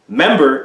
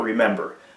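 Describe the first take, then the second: First: The first syllable of the word is dropped. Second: The word is said with all three syllables. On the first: The speaker calls it wrong. "truncate these words" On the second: The speaker calls it right. "remember is the proper word"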